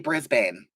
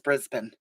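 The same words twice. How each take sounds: First: The name is said the typical American way. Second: The name is said the local Australian way. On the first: The speaker calls it wrong. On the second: The speaker calls it right. "But I know it's Brisbane"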